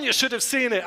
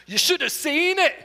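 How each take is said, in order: First: Said in the usual way. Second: Higher Scottish accent phrase; quick Scottish accent demo. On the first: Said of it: "the Scottish accent". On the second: Shown as a demonstration. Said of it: "one phrase with a Scottish accent".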